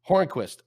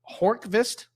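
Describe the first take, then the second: First: The name is said without a v sound. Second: The name is said with a v sound. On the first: The speaker calls it right. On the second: The speaker calls it wrong.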